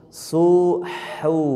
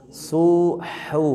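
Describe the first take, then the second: The two takes are said the same way.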